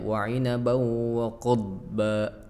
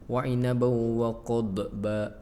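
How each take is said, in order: First: The d sound is held without any bounce. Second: The d sound bounces with a small echo. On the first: The speaker calls it right. "Harusnya ... ditahan" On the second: The speaker calls it wrong. "seperti mantul ya"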